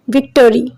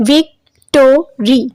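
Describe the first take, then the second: First: Said in the usual way. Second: "victory" split into three slow syllables, clear pauses between; drawn-out syllable breakdown of "victory". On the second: Shown as a demonstration. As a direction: break "victory" apart as vic... to... ry. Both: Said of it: "It has three number of syllable".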